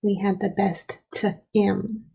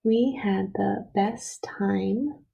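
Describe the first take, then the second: First: "t-im" with a short i, broken after the t; misspelling read literally. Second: Slow reading, "time" with a long "eye" vowel. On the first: Teacher reads what is written without the E, short i. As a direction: read "t-im" as "tuh-im", rhyming with him. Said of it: "Right now it says". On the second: Teacher rereads with the E added, long i. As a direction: stretch the words, "time" said with long i. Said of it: "to make the I say I". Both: Shown as a demonstration.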